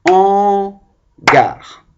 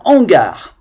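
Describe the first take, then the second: First: "Hangar" in two loud, separated beats; syllable clapping. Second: Said in the usual way. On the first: Shown as a demonstration. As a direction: chant "Hangar" as han... gar, first syllable held high. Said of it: "On le tape avec les mains".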